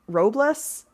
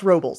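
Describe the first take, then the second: First: The name has a Spanish-style pronunciation. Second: The name has an Americanized English pronunciation. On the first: It follows how the name is said in Spanish. "more like Robles, which is how I would say that that's more likely to be pronounced in Spanish" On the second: It follows how the city's name is said. "is pronounced Robles... An aggressive Americanization"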